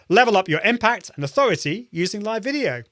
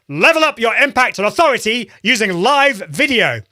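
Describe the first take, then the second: First: It is said with somewhat raised energy. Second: It is said with very high, projected energy.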